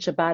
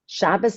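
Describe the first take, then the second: First: The word ends with a t sound. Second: The word ends with an s sound. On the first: This is the modern Israeli pronunciation. "In Israel" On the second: This is the older European pronunciation. "this older European pronunciation"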